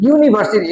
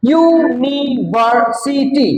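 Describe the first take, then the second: First: Said in the usual way. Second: ইউনিভার্সিটি slow and higher, U, NI, VER, SI, TY; five even beats on ইউনিভার্সিটি; broken into syllables. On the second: Shown as a demonstration. Teacher shows five syllables to class, ইউনিভার্সিটি split slowly. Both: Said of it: "পাঁচবার উচ্চারিত হয়েছে".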